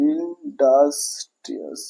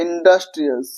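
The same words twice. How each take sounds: First: ইন্ডাস্ট্রিয়াস slow and soft, in separate syllables. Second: Said in the usual way. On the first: Shown as a demonstration. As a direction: break up ইন্ডাস্ট্রিয়াস quietly, beat by beat. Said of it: "syllable গুলো আমরা ভেঙে পড়ছি". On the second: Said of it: "অনেকবার ভেঙে বলতে হচ্ছে".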